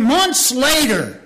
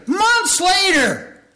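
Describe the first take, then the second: First: Said in the usual way. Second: "months later" stretched out slow and very high; hammed-up, drawn-out "months later"; emphatic repeat. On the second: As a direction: draw out both "months" and "later" at a high pitch. Repeats phrase for dramatic emphasis.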